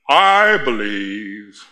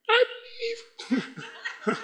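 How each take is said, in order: First: It is said proudly and confidently. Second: It is said in a very high voice.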